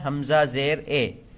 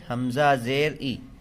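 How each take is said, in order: First: The vowel is a mid, 'ay'-like sound. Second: The vowel is a pure, high 'ee' sound. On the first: The speaker calls it wrong. "मजहूल क्या है? ... मजहूल से बचना है।" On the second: The speaker calls it right. "मारूफ क्या है? ... इस तरह पढ़ना है।"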